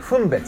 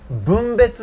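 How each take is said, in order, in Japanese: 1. この言葉は無声音の'f'で始まる。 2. この言葉は有声音の'b'で始まる。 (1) "点々ないでいいの" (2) "分別じゃなくて"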